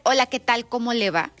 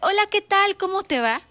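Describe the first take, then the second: First: The greeting sounds angry and cold. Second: The greeting sounds warm and friendly.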